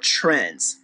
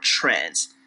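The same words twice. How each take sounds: First: Trends said slowly, leaning hard on the word; stress on trends. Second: "trends" dropped far lower and softer, falling. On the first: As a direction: press down on "trends" as she does. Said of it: "Put emphasis on that word". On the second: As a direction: let "trends" sink low and fall. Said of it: "use of the word". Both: Shown as a demonstration.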